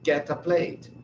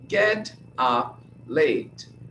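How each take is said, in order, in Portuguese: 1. As consoantes finais se ligam às palavras seguintes. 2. As palavras são ditas como palavras separadas.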